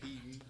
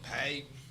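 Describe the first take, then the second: First: The name is said in a standard, non-country way. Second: The name is said in a country way.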